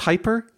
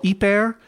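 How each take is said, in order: First: The word starts with an h sound. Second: The word starts without an h sound. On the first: The speaker calls it right. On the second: The speaker calls it wrong.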